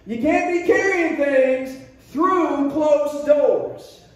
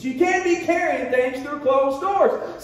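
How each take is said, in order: First: Drawn out and weighty, "carrying" stressed; slow emphatic teaching line. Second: Slow, shouted repeat, "can't" punched; preaching shout. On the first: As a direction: spell out the lesson slowly. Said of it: "teaching point". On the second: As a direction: preach it out to the room. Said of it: "teaching moments". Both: Shown as a demonstration.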